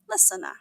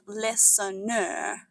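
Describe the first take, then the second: First: The silent letter is not sounded at all. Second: A normally silent letter is sounded out. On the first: The speaker calls it right. "it's pronounced listener" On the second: The speaker calls it wrong. "It's not pronounced listener"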